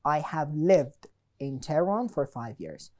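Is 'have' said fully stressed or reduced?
stressed. Have is said in full and stressed.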